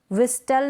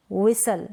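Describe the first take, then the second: First: व्हिस्टल with t after s; T sounded. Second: व्हिसल with no t; silent T. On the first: Teacher showing the misreading, व्हिस्टल with t sounded. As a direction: say व्हिस्टल as "wis-tal". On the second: Teacher correcting the misreading, व्हिसल without t. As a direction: say व्हिसल as "wi-sal". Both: Shown as a demonstration. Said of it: "नहीं".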